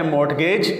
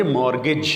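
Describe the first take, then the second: First: مارٹگیج as "mort-gayj"; spelling pronunciation. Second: مارگیج as "MOR-gij"; correct pronunciation. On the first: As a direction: sound the ٹ in مارٹگیج. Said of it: "اس کو لکھا جاتا ہے". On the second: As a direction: say مارگیج with silent t. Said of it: "لیکن اس کو پڑھیں گے". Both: Shown as a demonstration.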